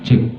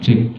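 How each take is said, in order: Both takes have the same delivery.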